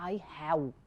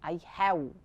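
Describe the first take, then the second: First: Have ends with a rounded-lip W-like sound. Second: The same.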